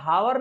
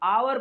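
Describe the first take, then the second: First: The word starts with an audible h sound. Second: The word starts directly with a vowel sound. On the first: The speaker calls it wrong. "घंटा को हावर नहीं आवर पढ़ा जाता है" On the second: The speaker calls it right. "H को silent रखना पड़ता है"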